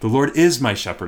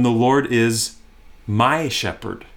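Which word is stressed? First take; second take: is; my. First: The stress falls on the word is. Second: The stress falls on the word my. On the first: It is certain that he is the shepherd. "I can be certain of it. I can be confident" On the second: He is personally and uniquely the speaker's shepherd. "Emphasize the "my" word"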